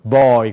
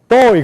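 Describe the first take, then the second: First: It is voiced deep from the throat, American-style. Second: It is voiced high from the mouth, Korean-style. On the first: The speaker calls it right. "boy 그런단 말이에요" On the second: The speaker calls it wrong. "그런 말이 없어요"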